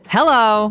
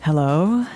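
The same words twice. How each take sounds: First: It is said strongly and forcefully. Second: It is said softly and gently.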